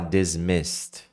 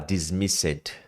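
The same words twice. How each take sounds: First: The s runs straight into a final d. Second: The ending is said as an extra syllable. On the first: The speaker calls it right. "Você sai do S e vai direto pro D" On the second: The speaker calls it wrong. "você não vai falar o e"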